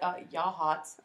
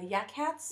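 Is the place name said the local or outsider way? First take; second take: local; outsider. First: It is said the way locals say it. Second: It is said the way outsiders say it. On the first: The speaker calls it right. "And I'm like" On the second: The speaker calls it wrong. "they're like"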